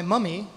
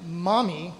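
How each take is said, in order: First: "mummy" with an English uh vowel; English-accented "mummy". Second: "mommy" with an open American ah; American vowel in "mommy". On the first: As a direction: say "mummy" as an English child would. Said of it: "in an English accent". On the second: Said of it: "not my m-, mommy". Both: Shown as a demonstration.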